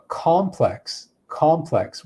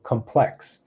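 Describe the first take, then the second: First: Complex, COM stressed hard, falling; stress on the first syllable. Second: Complex, PLEX stressed, rising tune; stress on the second syllable. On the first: Teacher showing the noun: complex stressed on COM. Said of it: "where we stress the first syllable". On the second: Teacher showing the adjective: complex stressed on PLEX. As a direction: say it com-PLEX, hitting the end. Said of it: "has the stress here on the second syllable". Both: Shown as a demonstration.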